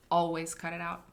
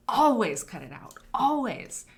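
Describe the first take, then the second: First: Always cut it out, firm; emphatic. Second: Always much louder, pitched up; emphatic louder. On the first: Teaching Orwell's rule, plain firm read. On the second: Repeating the rule to students, loud emphatic. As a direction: belt out always as a command. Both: Shown as a demonstration. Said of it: "If it is possible".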